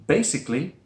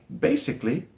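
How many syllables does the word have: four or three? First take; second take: three; three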